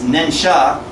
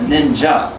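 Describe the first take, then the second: First: The second syllable is said as 'sha'. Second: The second syllable is said as 'ja'. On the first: This is the literal reading of the characters. "When you see the kanji nin and sha" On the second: This is how the word is actually spoken. "But we pronounce ninsha as ninja"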